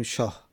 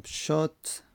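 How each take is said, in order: First: "شاه" ending in h instead of t; "شاه", the last sound an h, no t; pausal h ending. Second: "شات" ending in an audible t; "شات", closed on a t rather than an h; final t pronounced. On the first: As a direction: say "شاه" in pause, final ta turned to h. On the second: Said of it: "تای مربوطه با ها هستش". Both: Shown as a demonstration.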